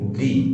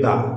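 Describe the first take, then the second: First: The word is said with a long ee vowel. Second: The word is said with a short uh vowel. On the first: The next word begins with a vowel. "Vowel দিয়ে শুরু হওয়া কোনো ওয়ার্ডের পূর্বে টি এইচ ই থাকলে তার উচ্চারণ কি হবে?" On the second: The next word begins with a consonant. "Consonant দিয়ে শুরু হওয়া ওয়ার্ডের আগে টি এইচ ই থাকলে তার উচ্চারণ কি হবে?"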